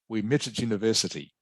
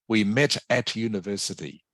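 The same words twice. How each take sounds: First: The word 'at' shrinks to almost a t sound. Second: The word 'at' is said as a full syllable. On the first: The speaker calls it right. "turn the at into a sound almost just like a t" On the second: The speaker calls it wrong. "I don't want you to say that"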